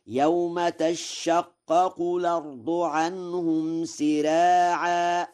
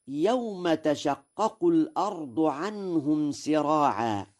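First: High, slow chant, doubled sh in تشقق; chanted Warsh recitation. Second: Said in the usual way. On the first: Shown as a demonstration. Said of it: "فيقرأ هكذا". (chanted, ترتيل بطيء مع تشديد شين تشقق) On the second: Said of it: "قوله تعالى".

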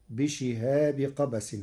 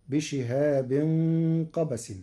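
First: بشهاب as "bishihabi", no n at the end; without tanween. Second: بشهاب as "bishihabin", nasal ending held into قبس; with tanween. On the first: Sheikh showing Warsh's reading, بشهاب ending in plain "-bi". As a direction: join بشهاب to قبس with plain "-bi". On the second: Sheikh quoting before Warsh's change, بشهاب with "-in". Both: Shown as a demonstration. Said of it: "بدون تنوين".

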